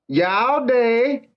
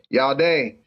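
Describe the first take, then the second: First: It is said with Cantonese tones and sounds. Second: It is said with American English intonation. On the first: The speaker calls it right. "how you say hello in Cantonese is" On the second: The speaker calls it wrong.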